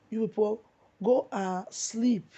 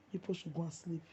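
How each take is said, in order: First: Loud, slow, scornful send-off; loud dismissal. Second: Soft, dropped-down dismissal; quiet repeat. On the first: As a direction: tell them off loudly, stretch "go and sleep". Scolding critics who rejoiced at death. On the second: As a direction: say it again under the breath, softer. Repeats dismissal to critics, softly. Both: Real, not acted.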